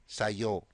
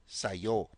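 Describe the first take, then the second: First: The words are contracted into one short word. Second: The same.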